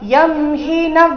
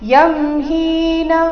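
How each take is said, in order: First: The vowel in 'hi' is kept short. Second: The vowel in 'hi' is drawn out long. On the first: The speaker calls it right. "ಈ ರೀತಿ" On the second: The speaker calls it wrong. "ಈ ರೀತಿ ಅಲ್ಲ"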